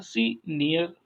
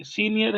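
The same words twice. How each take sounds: First: senior slowly split as सी, pause, near; stress on first syllable. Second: Said in the usual way. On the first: Shown as a demonstration. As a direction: set off सी at the start of senior. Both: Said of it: "शुरू में stress लगाएंगे".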